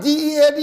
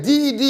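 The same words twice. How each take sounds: First: Letters "D E A D" spelled out one by one; spelled wrong way. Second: Letters "D E D" spelled out one by one; spelled right way. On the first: Correcting a listener, spelling "D E A D" letter by letter. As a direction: spell "D E A D" letter by letter, a bit raised. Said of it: "and not D E A D". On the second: Telling listeners you're "D E D" if broke. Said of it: "you're D E D". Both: Shown as a demonstration.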